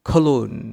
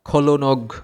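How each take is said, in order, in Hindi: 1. यह शब्द बिना किसी g ध्वनि के खत्म होता है। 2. यह शब्द g ध्वनि के साथ बोला जाता है। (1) "সঠিক উচ্চারণ হবে খলুন" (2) "এইভাবে উচ্চারণ করি, জি সহ উচ্চারণ করি, তাহলে কিন্তু হবে না"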